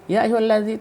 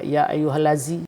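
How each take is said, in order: First: The consonant is a soft 'th' sound. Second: The consonant is a hard 'z' or 'd' sound. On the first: The speaker calls it right. "zal itu zal ringan" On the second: The speaker calls it wrong. "tidak mau kita baca"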